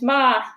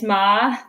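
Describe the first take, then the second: First: It is said with the first tone. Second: It is said with the second tone. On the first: "The first tone is ma" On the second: "Second tone is ma"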